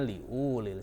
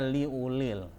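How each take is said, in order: First: The 'u' vowel is held long. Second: The 'u' vowel is held short. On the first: The speaker calls it wrong. "tidak dibaca ... salah" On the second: The speaker calls it right. "dibaca pendek. Makanya dibaca"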